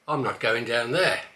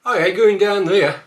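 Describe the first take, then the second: First: Said in the usual way. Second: Higher and louder broad Black Country line; Black Country accent, loud. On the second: Shown as a demonstration. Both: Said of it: "A few more".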